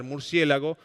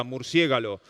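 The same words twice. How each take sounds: First: Murciélago said with l before g, stress on cié; the everyday popular murciélago; popular form. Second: Murciégalo said with g before l, stress on cié; the learned etymological murciégalo, carefully; learned form. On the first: Teacher contrasting forms for students, says the popular murciélago plainly. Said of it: "la versión más popular". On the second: Teacher contrasting forms for students, says murciégalo with the learned g-l order. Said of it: "la versión culta, etimológica". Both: Shown as a demonstration.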